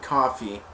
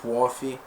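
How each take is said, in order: First: It is said with a West Coast American accent. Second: It is said with an East Coast American accent. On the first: "Instead of saying coffee like we do" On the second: "they say coffee"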